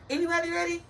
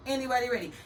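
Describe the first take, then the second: First: Rising "anybody ready?" hyped up; excited call out. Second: Said in the usual way. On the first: Real, not acted. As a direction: call out to the crowd.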